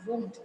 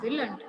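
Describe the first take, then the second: First: "won't" as one syllable with a long o, no l; correct contraction won't. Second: "willn't" as will plus a tacked-on n't, two syllables; wrong contraction willn't. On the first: Teacher giving students the right form, correct "won't" in one syllable. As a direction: drop the l, round the vowel to a long o in "won't". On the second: Teacher warning of a common mistake, wrong contraction "willn't" in two syllables. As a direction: keep the l in "willn't", then an unstressed -nt. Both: Shown as a demonstration. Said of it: "It is not willn't, it is won't".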